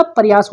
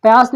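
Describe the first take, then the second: First: Said in the usual way. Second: प्रयास said as payaas, the r left out; प्रयास mispronounced without the r; wrong pronunciation. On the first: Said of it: "प्रयास होता है". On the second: Shown as a demonstration. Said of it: "प्रयास नहीं होता".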